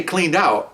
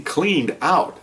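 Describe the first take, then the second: First: Said in the usual way. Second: CLEANED OUT drawn out slowly, each word weighted; "cleaned out" said very slowly and deliberately; stress on cleaned out. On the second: Shown as a demonstration. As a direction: stretch "cleaned out" slowly for emphasis. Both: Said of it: "when I say cleaned out, I mean".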